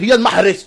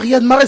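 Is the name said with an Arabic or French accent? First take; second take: Arabic; French. First: The name is said with an Arabic accent. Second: The name is said with a French accent. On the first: The speaker calls it right. "Si les Arabes aussi ... on dit" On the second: The speaker calls it wrong. "on dit pas"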